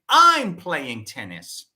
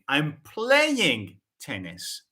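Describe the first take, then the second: First: The stress is on the word I'm. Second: The stress is on the word playing. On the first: It is me, not someone else, who is playing. "The focus is on I" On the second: I am playing it, not watching it. "I'm shifting the focus on the verb play"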